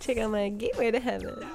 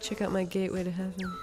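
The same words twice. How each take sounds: First: It is said in a giggly voice. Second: It is said in a plain, non-giggly voice. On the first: "She's like giggly" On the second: "That's not how she talks"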